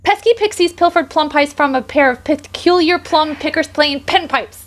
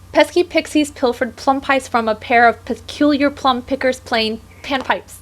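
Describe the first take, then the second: First: It is said even faster. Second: It is said fast.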